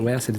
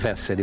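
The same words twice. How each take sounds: First: The name begins with a W sound. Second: The name begins with a V sound. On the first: This is how people in Brazil say it. "todo mundo me chama de Wesley" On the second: This is the name's own German pronunciation. "o meu nome mesmo se pronuncia Wesley"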